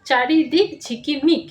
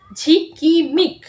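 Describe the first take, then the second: First: চারিদিক ঝিকিমিক read smoothly as whole words; চারিদিক ঝিকিমিক blended into whole words. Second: ঝিকিমিক split into slow syllables, ঝি-কি-মিক; ঝিকিমিক said in slow, separate syllables. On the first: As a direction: read চারিদিক ঝিকিমিক joined up, a little slow. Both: Shown as a demonstration. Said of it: "এইভাবেই তোমরা পড়বে".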